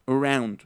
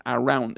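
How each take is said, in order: First: "around" as "uh-ROUND", first vowel almost lost; reduced start on "around"; schwa. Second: "around" as "ah-round", clear open A; unreduced "around"; full first vowel. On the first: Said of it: "donde se pierde la". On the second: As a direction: mispronounce "around" with a full Spanish A. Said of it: "no es around". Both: Shown as a demonstration.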